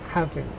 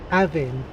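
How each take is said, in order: First: The h at the start is pronounced. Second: The h at the start is dropped. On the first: "rather than" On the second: "because of where I come from, I will say"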